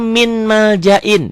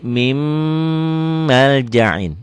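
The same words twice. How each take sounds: First: "min maljain" slow and high, N as spelled; written form MIN. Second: "mim maljain" with the N turned to a long hummed M; sung, hold a nasal M from "mim" into "maljain"; merged with hum. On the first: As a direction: say "min maljain" pitched up, keeping the N. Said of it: "Ditulisnya min maljain". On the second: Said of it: "disertai dengan dengung". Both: Shown as a demonstration.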